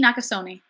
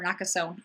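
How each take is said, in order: First: "Nakasone" with a sounded final e; alternative pronunciation. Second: "Nakasone" with a silent final e, softer; alternative pronunciation. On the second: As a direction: say "Nakasone" ending on -sohn. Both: Shown as a demonstration. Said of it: "no idea how to pronounce".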